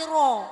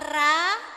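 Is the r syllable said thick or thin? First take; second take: thick; thin. First: The r syllable is thick, with a rounded vowel. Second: The r syllable is thin, with a light vowel. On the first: The speaker calls it right. "tapi ro ... Tebal ya" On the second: The speaker calls it wrong. "bukan ra"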